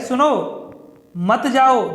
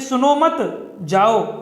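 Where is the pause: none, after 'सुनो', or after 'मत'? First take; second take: after सुनो; after मत. First: There is a pause after 'सुनो'. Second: There is a pause after 'मत'.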